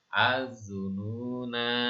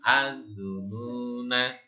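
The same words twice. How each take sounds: First: The final vowel is held long. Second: The final vowel is cut short. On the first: The reader stops after this word. "kalau dibaca berhenti" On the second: The reader continues on without stopping. "Kalau dibaca sambung"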